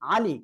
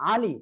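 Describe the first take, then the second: No difference in how they are said.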